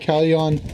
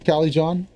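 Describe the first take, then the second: First: The J is silent, said the Spanish way. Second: The J is clearly sounded as a J. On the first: The speaker calls it wrong. "I said it like Spanish with a silent J" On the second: The speaker calls it right.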